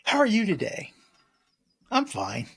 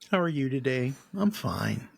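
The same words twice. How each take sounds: First: It sounds bright, open and upbeat. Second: It sounds low, flat and dejected.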